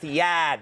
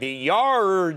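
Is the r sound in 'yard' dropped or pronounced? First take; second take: dropped; pronounced. First: Yard is said without the r sound. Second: Yard is said with the r sound. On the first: The speaker calls it right. "no, it's the yad" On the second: The speaker calls it wrong. "I'm going"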